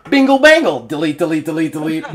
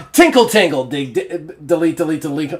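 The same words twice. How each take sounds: First: Playful singsong chant; sung, silly jingle. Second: Sung, singsong ditty mocking the writer; sung, silly jingle. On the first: Pretend. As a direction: sing it again, even bouncier. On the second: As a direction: chant it like a playful tune.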